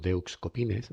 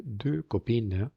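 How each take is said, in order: First: DEUX COPINES as "de-uks kopines"; wrong, letters sounded. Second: Slow DEUX COPINES, x and s silent; stretched-out "deux copines" with silent endings; correct French pronunciation. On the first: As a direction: read "deux copines" Spanish-style, every letter. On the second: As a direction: say "deux copines" as "duh kopeen". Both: Shown as a demonstration. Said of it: "ahí no decimos".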